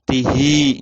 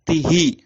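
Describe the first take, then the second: First: The final i vowel is drawn out long. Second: The final i vowel is short. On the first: "Kalau panjang" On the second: "itu pendek"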